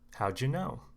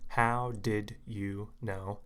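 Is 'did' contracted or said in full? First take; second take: contracted; full. First: The words blend together with 'did' contracted. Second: Each word is said slowly and clearly, separately. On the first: The speaker calls it right. "we try to blend or blur the words together" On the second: The speaker calls it wrong. "that's not going to sound natural because it's too slow. It's too clear"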